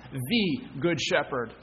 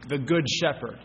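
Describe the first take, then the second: First: "The" drawn out and set apart before "Good Shepherd"; stress on THE. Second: Said in the usual way. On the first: Real, not acted. Preacher tells congregation there is only one, stress on "The". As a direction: lean hard on the word "The". Repeats title stressing the article.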